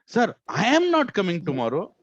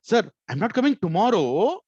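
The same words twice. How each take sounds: First: "I am" swelled loud and high; big emphatic "I am" after "Sir"; stress on I am. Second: "tomorrow" loud and stretched, swooping up high; stress on tomorrow. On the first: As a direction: lean hard on "I am", then ease through the rest. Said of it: "The word that you stress makes". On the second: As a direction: save the punch for a long rising "tomorrow". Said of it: "what word you're trying to stress". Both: Shown as a demonstration.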